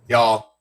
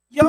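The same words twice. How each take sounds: First: It sounds grave and heavy, delivering bad news. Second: It sounds delighted and touched, joyfully surprised. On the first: Bad news is coming. "a woman from Texas about to impart bad news on a group of people" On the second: She is happily surprised by her friends. "realized they had thrown her a surprise party"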